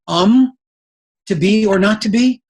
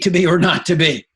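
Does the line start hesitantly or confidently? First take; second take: hesitantly; confidently. First: It starts hesitantly with a filler um. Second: It starts confidently with no filler.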